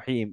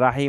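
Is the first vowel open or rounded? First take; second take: rounded; open. First: The first vowel is rounded with pursed lips. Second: The first vowel is an open 'aa' sound. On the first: The speaker calls it right. "দুই ঠোঁট গোল করে" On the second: The speaker calls it wrong. "রাহিম আর হবে না"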